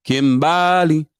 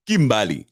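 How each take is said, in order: First: Kimbali drawn out slowly and loudly; mock Kimbali, slow and emphatic; his way of saying it. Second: Said in the usual way. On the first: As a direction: stretch Kimbali like he does. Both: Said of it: "That's how he says it".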